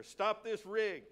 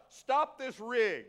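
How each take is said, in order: First: Milder repeat of a slow holler; mock yell. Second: Loud, slow, drawn-out holler; yelled command. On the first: Preacher jokingly repeating the chariot order, mild mock yell. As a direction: stretch the words like a half-hearted yell. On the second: Retold or imitated. Preacher acting out the Ethiopian halting his chariot, yelling. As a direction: call it out loud and higher, each word stretched. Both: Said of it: "He yelled out".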